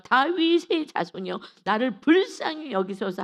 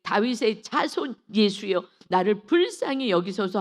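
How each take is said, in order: First: Crying out louder. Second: Crying out. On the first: Silenced blind man cries out harder to Jesus, shouting. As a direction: shout for mercy, louder and higher. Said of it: "더욱 크게 소리질러". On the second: Blind man calls out to Jesus for mercy, crying out. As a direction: call out for mercy, drawing out the words. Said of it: "막 큰 소리로 외쳐 이르되". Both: Acted.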